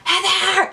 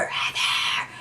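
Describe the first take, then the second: First: High, drawn-out attempt at a hushed call; strained hushed call. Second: Breathy, urgent whisper of a name; whispered call. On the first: Calling to passed-out friend on the stairs, high strained call. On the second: Retold or imitated. Calling to passed-out friend on the stairs, whispered. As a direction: call out to her under your breath. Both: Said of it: "I'm trying to whisper".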